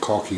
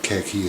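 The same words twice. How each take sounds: First: The word has a South African pronunciation. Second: The word has an American pronunciation. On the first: "I say Khaki ... the South African pronunciation" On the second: "as the Americans do"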